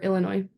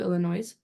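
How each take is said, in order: First: The final s is silent. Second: The final s is pronounced. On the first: The speaker calls it right. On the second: The speaker calls it wrong.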